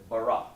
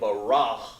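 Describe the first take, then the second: First: The word ends on a plain vowel. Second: The word ends with an h sound. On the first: The speaker calls it right. "I said bara" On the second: The speaker calls it wrong. "I didn't say barah"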